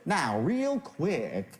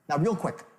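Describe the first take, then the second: First: The phrase is spoken slowly. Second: The phrase is spoken quickly. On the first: The delivery clashes with the meaning of the words. The speaker calls it wrong. "I wouldn't say now real quick" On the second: The delivery matches the meaning of the words. The speaker calls it right. "when I say now real quick, I speak quickly"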